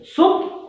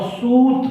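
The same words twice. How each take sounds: First: सुत with a short, quick u vowel. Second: सूत with a long, drawn-out oo. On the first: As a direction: keep the u in सुत brief. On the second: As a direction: stretch the vowel in सूत. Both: Shown as a demonstration. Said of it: "हसौ और दीर्घों में अंतर".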